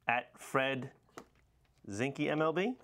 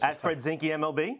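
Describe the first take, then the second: First: It is said tentatively, with little confidence. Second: It is said firmly, with clear confidence. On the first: The speaker calls it wrong. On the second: The speaker calls it right.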